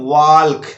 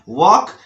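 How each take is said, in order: First: An L sound is pronounced before the k. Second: No L sound is pronounced before the k. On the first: The speaker calls it wrong. "जो कि बिल्कुल गलत है" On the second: The speaker calls it right. "वॉक बोलना है"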